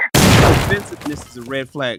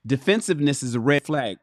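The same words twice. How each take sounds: First: Repeated far louder for emphasis; loud emphatic repeat; louder declaration. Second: Said in the usual way. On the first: Shown as a demonstration. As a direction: hammer the line home loud. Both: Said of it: "repeated louder".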